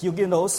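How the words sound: It is said with a British pronunciation. "in British as well as in French, it's Huguenots"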